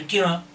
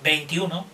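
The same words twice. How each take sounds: First: Some sounds are swallowed and slurred together. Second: Every syllable and sound is said clearly. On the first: The speaker calls it wrong. "No vale por dentro" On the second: The speaker calls it right. "Tienes que decir todas las sílabas, todos los sonidos bien dichos"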